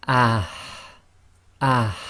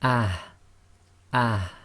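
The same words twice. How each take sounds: First: Ah pushed louder with strong air; ah with a forceful h out the front of the mouth. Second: Ah with a soft throat h. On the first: Teacher shows the second, forceful ha. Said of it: "the second one is". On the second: Teacher shows the first, soft ha. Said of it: "the soft one, will be". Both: Shown as a demonstration.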